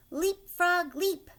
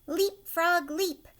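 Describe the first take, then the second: No difference in how they are said.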